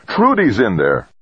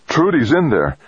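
First: Raised, desperate protest; forceful, high-starting cry; bellowing. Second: High, anxious realization without shouting; pitched-up, worried, falling at the end; gulped alarm. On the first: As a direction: bellow it with a strong first word. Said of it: "Rodriguez bellowed". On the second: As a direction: gulp it out in dawning alarm. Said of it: "Rodriguez gulped". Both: A narrator's reading.

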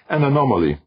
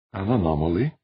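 First: ANOMALY stated as a firm falling statement; announced finding. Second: ANOMALY lifted into a question; questioning echo. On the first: Defia announces what they found. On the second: Audrey echoes it as a question. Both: Acted.

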